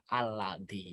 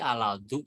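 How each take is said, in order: First: The word ends with an 'i' vowel. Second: The word ends with a 'u' vowel. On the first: The speaker calls it right. "Cuman bacanya satu saja" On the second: The speaker calls it wrong. "Tidak boleh dibaca aladu"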